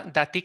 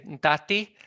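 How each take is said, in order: First: TI in "dati" stressed, inside a phrase; stress on second syllable. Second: DA in "dati" stressed, as a word on its own; stress on first syllable. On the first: Linguist showing the word in context, second-syllable stress on "dati". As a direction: say "dati" with the accent on TI. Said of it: "el acento en la segunda sílaba". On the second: Linguist citing an isolated word to students, first-syllable stress on "dati". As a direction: say "dati" with the accent on DA. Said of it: "el acento en la primera sílaba". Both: Shown as a demonstration.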